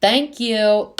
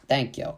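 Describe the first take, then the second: First: High, loud, drawn thanks; ringing, pitched-up approval; emphatic agreement. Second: Said in the usual way. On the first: Real, not acted. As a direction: exclaim it in total vindication. Emphatic agreement with quoted tweet.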